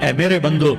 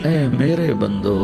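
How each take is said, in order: First: It is said in a plain, ordinary tone. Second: It is said in a tender, loving tone. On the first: The speaker calls it wrong. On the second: The speaker calls it right.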